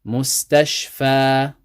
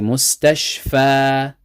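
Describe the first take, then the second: First: The word ends with a long a vowel. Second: The same.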